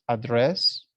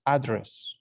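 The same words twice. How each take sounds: First: "address" with the first syllable stressed, rising. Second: "address" with weight on DRESS, falling; stress on adDRESS. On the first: Teacher to class, noun stress on address. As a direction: hit the AD of "address". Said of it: "Address is the place". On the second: Teacher to class, verb stress on address. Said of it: "address is when you give an speech". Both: Shown as a demonstration.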